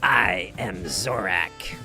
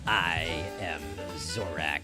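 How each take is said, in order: First: The voice is raspy and deliberately cracking. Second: The voice is smoother, with little rasp.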